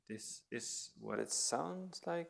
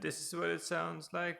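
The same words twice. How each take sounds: First: It is spoken in a whisper. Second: It is spoken at a normal volume. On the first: "when I whisper" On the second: "when I talk in a normal tone"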